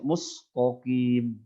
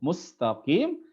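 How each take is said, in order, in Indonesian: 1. Bunyi t-nya tebal. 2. Bunyi t-nya tipis. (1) "tapi dibaca mustaqim" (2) "dibaca dengan tipis"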